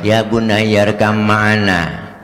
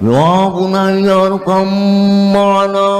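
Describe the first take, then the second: First: It is spoken flatly, like a plain speech. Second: It is called out loudly, as across a distance. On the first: The speaker calls it wrong. "Masa pidato, ... kurang menarik itu mah" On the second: The speaker calls it right. "gaya memanggil biar kebayang begitu jauhnya Nabi Nuh sama Kan'an"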